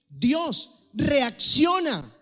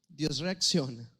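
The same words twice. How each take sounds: First: It is said as an urgent wake-up command. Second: It is said in a sarcastic, ironic tone. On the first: Someone is being urged to snap out of it. "Como cuando alguien está moribundo, como cuando alguien no te presta atención" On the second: The speaker doubts that it is true. "como con ironía"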